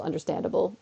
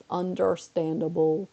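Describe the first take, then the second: First: Said in the usual way. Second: "Understandable" slowly stretched syllable by syllable; drawn-out repeat. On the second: Real, not acted. Streamer concedes the dog's absence, "Understandable" said slowly and deliberately. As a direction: draw out "Understandable", lifting at the end.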